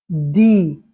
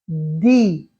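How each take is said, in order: Both takes have the same delivery.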